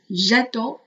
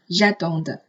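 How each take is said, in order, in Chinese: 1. 词尾的辅音在结尾处不发音。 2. 词尾的辅音在结尾处要发音。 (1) "三个人称末尾的字母they 是不发音的，加了s 也仍然不发音" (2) "千万不要读成j'attends"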